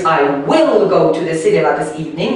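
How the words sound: The word will is heavily stressed.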